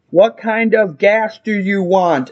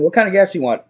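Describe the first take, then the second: First: Slow, deliberate question; insistent repeat. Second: Said in the usual way. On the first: Retold or imitated. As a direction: spell it out slowly for someone not hearing. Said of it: "I just keep getting louder". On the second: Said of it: "I'm, like, asking".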